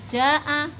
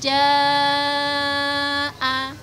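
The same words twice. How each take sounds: First: The vowel is said short. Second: The vowel is held long. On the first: The speaker calls it wrong. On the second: The speaker calls it right. "Yang betul idza jaa"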